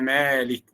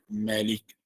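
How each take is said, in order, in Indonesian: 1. Vokal pertama panjang. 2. Vokal pertama pendek.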